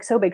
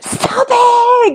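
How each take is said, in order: First: It is said flatly, with little energy. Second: It is said excitedly, with lots of energy.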